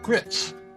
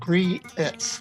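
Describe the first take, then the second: First: The vowel is short, one syllable. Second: The vowel is drawn out into two syllables.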